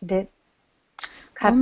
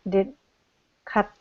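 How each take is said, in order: No difference in how they are said.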